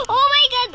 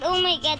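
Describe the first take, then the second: First: Loud, high oh my God; shocked exclamation. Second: Said in the usual way. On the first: Real, not acted. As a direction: burst out in shock. Shocked at game.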